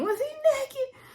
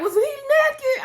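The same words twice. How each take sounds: First: High, laughing question; laughing shout. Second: High, slow, shouted question; shouting. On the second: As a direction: yell it out in disbelief. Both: Retold or imitated. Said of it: "I was in there shouting".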